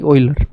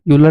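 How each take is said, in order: First: The name begins with an 'oy' sound. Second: The name begins with a 'you' sound. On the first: The speaker calls it right. "इसके नाम को pronounce करते हैं ऑयलर" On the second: The speaker calls it wrong. "यूलर नहीं"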